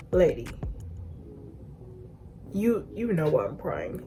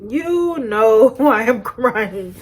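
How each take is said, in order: First: Restrained retort. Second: Loud, drawn-out, laughing accusation; mock indignant retort. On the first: Retold or imitated. Crying child answers the lady, restrained retort. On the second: Crying child answers the lady, loud mock indignation. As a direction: stretch each word loudly, half laughing.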